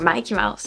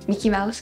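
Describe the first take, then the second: First: The name's first vowel is long, as in 'Mike'. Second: The name's first vowel is short, as in 'Mick'. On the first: "it sounds better" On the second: "Mickey sounds too dumb"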